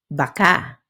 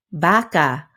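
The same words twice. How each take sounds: First: "baka" with short first, stressed final syllable; quick ba, then land on KA in "baka"; stress on last syllable. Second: "Baka" with a long, stressed first syllable. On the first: Teacher showing learners how stress changes meaning, "baka" stressed on last syllable. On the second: Teacher showing learners how stress changes meaning, "Baka" stressed on first syllable. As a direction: lean on and stretch the BA in "Baka". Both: Shown as a demonstration. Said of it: "just shifting that spotlight can totally change".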